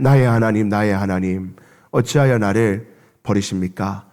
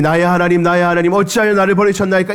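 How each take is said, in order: First: Low, hushed, forsaken plea; anguished cry to God. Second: Higher, fast mock of the cry; mocking echo. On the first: Acted. Jesus on the cross crying out to his Father, low and hushed. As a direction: pray it out like a broken, abandoned son. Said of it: "하나님 앞에 절규하였습니다". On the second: A bystander mocking Jesus's cry, higher and fast. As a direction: toss the plea back like a jeering bystander. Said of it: "주님을 조롱합니다".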